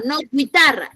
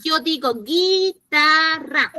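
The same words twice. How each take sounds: First: Guitarra as gwi-tarra, u sounded; wrong guitarra. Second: Slow guitarra, gi with no u sound; drawn-out guitarra, gi-tarra, silent u; correct guitarra. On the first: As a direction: contrast guitarra with a spoken u. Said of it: "Nosotros decimos guitarra". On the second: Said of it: "En la oralidad". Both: Shown as a demonstration.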